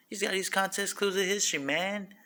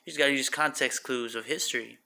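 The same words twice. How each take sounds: First: Put-on higher quick voice. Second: Said in the usual way. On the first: Repeats the line in a put-on voice.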